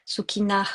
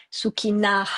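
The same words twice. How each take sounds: First: Sukhina with an exhaled h; breathed h. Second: Sukhina with the h on the out-breath. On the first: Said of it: "avec un H". (Sukhina avec un H expiré) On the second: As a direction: let air out on the h of Sukhina. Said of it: "en expirant, avec un H". (Sukhina en expirant sur le H) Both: Shown as a demonstration.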